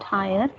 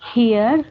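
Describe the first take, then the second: First: It sounds like English 'higher'. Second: It sounds like English 'here'. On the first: The speaker calls it wrong. "not higher" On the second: The speaker calls it right. "here, not higher"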